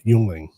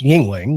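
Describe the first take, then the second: First: The first syllable sounds like 'yung'. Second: The first syllable sounds like 'ying'. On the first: The speaker calls it wrong. "we were pronouncing it wrong at the beginning of the night" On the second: The speaker calls it right. "It's pronounced Yingling"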